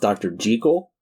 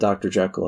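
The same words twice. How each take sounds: First: Jekyll is said the Scottish way. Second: Jekyll is said the usual American way. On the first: "in native Scotland... It's pronounced Doctor Jekyll" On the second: "Us Americans call it Doctor Jekyll"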